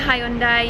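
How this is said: It is said the Australian way. "we say Hyundai"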